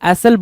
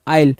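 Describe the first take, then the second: First: The word is said with an s sound. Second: The word is said without an s sound. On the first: The speaker calls it wrong. "एसल बोलते नहीं है, pronunciation इसका एसल होता नहीं है" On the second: The speaker calls it right. "आयल होता है"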